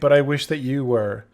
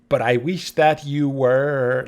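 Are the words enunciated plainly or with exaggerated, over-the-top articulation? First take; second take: plainly; exaggerated. First: The words are articulated plainly and normally. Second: The words are articulated in an exaggerated way. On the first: "instead of saying" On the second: "it's like over, not over, but like"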